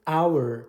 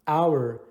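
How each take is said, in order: Both takes have the same delivery.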